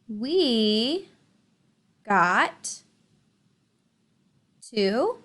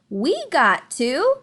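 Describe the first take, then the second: First: It is read in a flat, plain voice. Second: It is read in an excited, lively voice. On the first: The speaker calls it wrong. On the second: The speaker calls it right.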